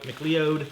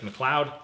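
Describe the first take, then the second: First: McLeod said as "mick-lee-ode"; alternative pronunciation. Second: McLeod said as "muh-CLOUD"; preferred pronunciation. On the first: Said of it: "Some people probably say McLeod". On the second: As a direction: pronounce McLeod to rhyme with cloud. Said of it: "but I think it's McLeod". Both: Shown as a demonstration.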